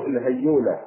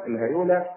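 First: الهيولى with the ya held as a double y; doubled ya. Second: الهيولى with a single, undoubled ya; light ya. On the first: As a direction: say الهيولى as hay-yuula, stressing the doubled y. (الهيولى بياء مشددة مضمومة) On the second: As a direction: say الهيولى with a light y before the long u. (الهيولى بياء مخففة مضمومة) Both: Shown as a demonstration. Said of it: "بضم الياء مخففة أو مشددة".

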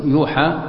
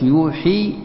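First: يوحى ending in a long aa; passive form. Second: يوحي ending in a long ii; active form. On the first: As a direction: say يوحى as yoo-haa. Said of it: "هذا مبني غير المعلوم". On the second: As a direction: say يوحي as yoo-hee. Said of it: "مبني المعلوم". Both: Shown as a demonstration.

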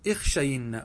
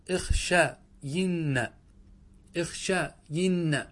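First: Said in the usual way. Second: "اخشين" very slow, broken after the long "sha"; careful demonstration. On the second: Shown as a demonstration. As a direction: split "اخشين" into drawn-out syllables. (نطق «اخشين» ببطء شديد مقطعًا مقطعًا) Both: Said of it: "انظروا كيف يخطئون فيها".

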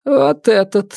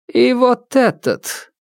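First: High, commanding point; single out the culprit coldly; stern widow. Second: Higher, slow and commanding; stern widow. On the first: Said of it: "сказала она". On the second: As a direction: pick the next victim, unhurried. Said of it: "Палец ... указал на другого". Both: Acted.

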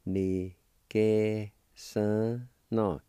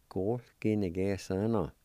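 First: "ni que son no" drawn out, syllable by syllable, very slow. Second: Said in the usual way. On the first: Shown as a demonstration. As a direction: spell out "ni que son no" slowly for learners. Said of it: "Second part". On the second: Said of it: "And together".

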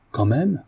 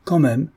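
First: Higher, rising startled question; mildly incredulous cry; exclaimed question. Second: Higher, falling emphatic reply; decisive echo of the question; firm confirmation. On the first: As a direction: throw it back in disbelief. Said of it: "Cria Guillemard". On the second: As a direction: confirm it with finality. Notary firmly confirms the point. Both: A narrator's reading.

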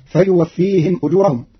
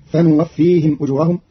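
First: فيوفيهم with ya, fayuwaffihim; Hafs reading. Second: فنوفيهم with nun, fanuwaffihim; Qalun reading. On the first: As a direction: start فيوفيهم with ya. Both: Shown as a demonstration. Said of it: "بالنون بدل الياء".

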